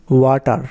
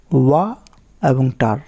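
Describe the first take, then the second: First: Said in the usual way. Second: "ওয়া" and "টার" as two separate pieces with a pause between; split into syllables. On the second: Shown as a demonstration. Teacher showing two syllables, "ওয়া" and "টার" said apart. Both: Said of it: "দুইভাবে উচ্চারণ হচ্ছে".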